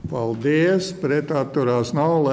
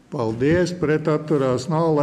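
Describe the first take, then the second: No difference in how they are said.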